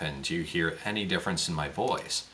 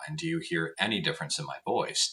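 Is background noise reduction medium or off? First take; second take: off; medium. First: Background noise is heard with no reduction. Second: Background noise is reduced at a medium level. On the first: "So let's turn that off" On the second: "Let's turn that on medium now"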